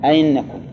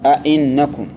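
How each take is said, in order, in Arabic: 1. الهمزة الثانية مسهلة، ولا تُزاد ألف. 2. كلتا الهمزتين محققتان، ولا تُزاد ألف. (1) "تسهيل الثانية ... سهلة، تخليها بين الياء والهمزة" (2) "تحقيق الهمزتين تقول"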